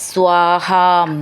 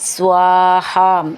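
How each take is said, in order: No difference in how they are said.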